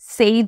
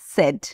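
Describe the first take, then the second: First: The vowel is a long 'ay' glide. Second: The vowel is a short 'e' sound. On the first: The speaker calls it wrong. "আমি কিন্তু সেইড বলিনি" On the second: The speaker calls it right. "আমি বলেছি সেড"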